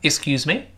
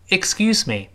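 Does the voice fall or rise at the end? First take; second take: rise; fall. First: The pitch rises at the end of the phrase. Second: The pitch falls at the end of the phrase. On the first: "这是升调" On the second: "我们当然读成降调"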